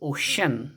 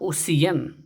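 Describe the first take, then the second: First: The middle consonant is an sh sound. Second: The middle consonant is a plain s sound. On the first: The speaker calls it right. "श sound निकल जाती है" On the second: The speaker calls it wrong. "It is not ओसियन"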